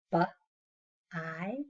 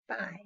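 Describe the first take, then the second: First: "bu-, I" with a gap between the sounds; segmented sounds. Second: Said in the usual way. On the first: Shown as a demonstration. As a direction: break "bu-, I" into consonant, pause, vowel. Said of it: "into two different sounds". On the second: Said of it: "How about buy".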